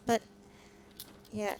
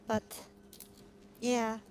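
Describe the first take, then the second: No difference in how they are said.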